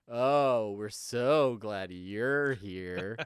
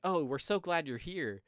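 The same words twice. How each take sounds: First: It is said in a mocking, sarcastic tone. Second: It is said in a warm, sincere tone. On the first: The speakers seem not glad at all. "comes off super sarcastic" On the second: The speakers really are glad. "they're genuinely saying like"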